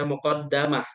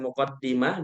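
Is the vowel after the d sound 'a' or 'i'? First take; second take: a; i. First: The vowel after the d is a. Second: The vowel after the d is i. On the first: "bisa dibaca muqaddamah" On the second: "muqaddimah pakai kasroh"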